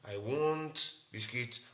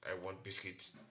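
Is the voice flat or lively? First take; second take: lively; flat. First: It is said with varied, lively pitch. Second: It is said in a flat, single tone. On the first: The speaker conveys emotion in the voice. "like the normal" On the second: The speaker cannot convey emotion in the voice. "They may have just one tone"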